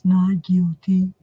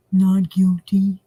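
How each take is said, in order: First: Slow, drawn-out "Not guilty"; lightly voiced flat plea; imitating defendant. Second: Slow, drawn-out "not guilty"; lightly mocking the plea; imitating defendant. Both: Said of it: "That's how he sounds".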